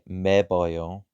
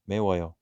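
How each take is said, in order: First: A b sound comes before the final syllables. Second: A w sound comes before the final syllables. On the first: The speaker calls it wrong. "but we don't say meboyo" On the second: The speaker calls it right. "Bucket transforms into an ooh"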